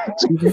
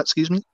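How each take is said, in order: First: "Excuse me?" jumping much higher in disbelief; high shocked excuse me. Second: Said in the usual way. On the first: Retold or imitated. Retelling a coworker's remark, a high shocked excuse me. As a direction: squeal "Excuse me?" as if you can't believe your ears.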